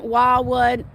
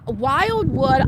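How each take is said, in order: First: "Wildwood" run together as "Walwood", the d swallowed; slurred Wildwood. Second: "Wildwood." said clearly as "Wild-wood", both d sounds there; careful Wildwood. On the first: Real, not acted. Telling friends about family reunions, slurred place name. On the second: Shown as a demonstration. Fixing how she said the town name, careful and clear. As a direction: correct yourself with a clear "Wildwood.". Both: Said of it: "Okay, Wa".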